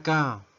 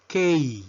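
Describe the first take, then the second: First: Said in the usual way. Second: Letter K pronounced "kay"; English letter K. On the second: Shown as a demonstration. Teacher modelling the English alphabet, K as "kay". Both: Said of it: "La letra K".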